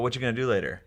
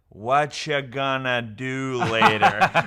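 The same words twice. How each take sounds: First: The question is spoken at a normal fast pace. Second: The question is spoken slowly but still run together.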